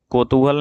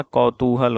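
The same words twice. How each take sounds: First: कौतूहल begun with "ko". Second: कौतूहल begun with "kau"; correct au vowel. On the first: Teacher showing the mistake, कौतूहल with ko. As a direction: say कौतूहल as kotuhal. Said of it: "कौतूहल नहीं होता". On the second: Teacher correcting the word, कौतूहल with kau. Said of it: "कौतूहल होता है". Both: Shown as a demonstration.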